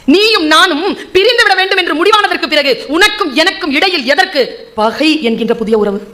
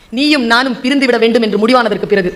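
First: Poetry declamation. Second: Said in the usual way. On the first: Shown as a demonstration. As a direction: declaim the couplet to a hall, then let it sink. Recites the verse again, declaimed.

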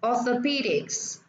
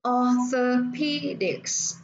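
First: Orthopedics said whole, stress on PE; stress on third syllable. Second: Orthopedics very slow, or-tho-PE-dics; stress on third syllable. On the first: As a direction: say orthopedics joined up, a little slowly. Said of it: "nhấn vào âm thứ ba". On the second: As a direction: sound out orthopedics in four separate syllables. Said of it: "ba, bốn và nhấn vào âm thứ ba". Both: Shown as a demonstration.

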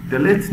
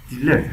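First: "دلت" said as "de-let", short e first; "دلت" as a mistaken reading of delete; wrong pronunciation. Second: "دیلت" said as "di-let"; "دیلت" starting with "dee"; correct pronunciation. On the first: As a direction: say "دلت" with a lax first vowel. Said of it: "دلت نیست". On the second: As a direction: clear i in the first syllable of "دیلت". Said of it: "دیلت هست". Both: Shown as a demonstration.

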